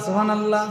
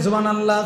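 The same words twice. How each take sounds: No difference in how they are said.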